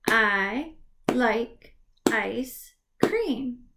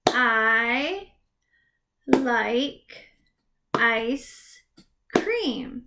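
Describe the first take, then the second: First: Said in the usual way. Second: Each word split apart with pauses; word by word, pausing between each; clapped syllables. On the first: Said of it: "do you hear all the separate words". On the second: Shown as a demonstration. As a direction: clap out every word slowly. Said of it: "clap it out".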